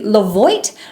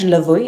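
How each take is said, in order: First: The name is said with a plain English pronunciation. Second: The name is said with a French-style pronunciation. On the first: "did I say that right?" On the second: "it's like a French Levoit"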